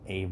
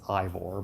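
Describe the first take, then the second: First: The name begins with an 'ah' sound. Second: The name begins with an 'eye' sound. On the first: It copies how others in the game say it. "they were saying it like Avor" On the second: It is read straight from the spelling. "the way I would pronounce it if somebody just showed it to me"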